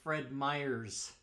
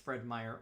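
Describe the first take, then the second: First: The name ends with an added s sound. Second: The name ends without an added s sound. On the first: The speaker calls it wrong. "which is not" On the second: The speaker calls it right. "it's Fred Meyer"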